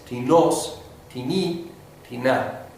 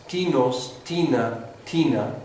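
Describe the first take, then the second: First: "tinos, tini, tina" como ti-NOS, ti-NI, ti-NA; acento en segunda sílaba. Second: "tinos", "tina" con la primera sílaba tónica: TI-nos, TI-na; acento en primera sílaba. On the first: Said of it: "caen en la segunda". (acento agudo, en la segunda sílaba: ti-NÓS, ti-NÍ, ti-NÁ) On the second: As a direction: marca el TI inicial de "tinos, tina, tina" y deja caer el final. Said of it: "en lugar de la primera". (acento en la primera sílaba de cada palabra: TÍ-nos, TÍ-na) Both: Shown as a demonstration.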